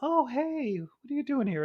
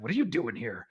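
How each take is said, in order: First: It is said in a warm, friendly tone. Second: It is said in a cold, unfriendly tone.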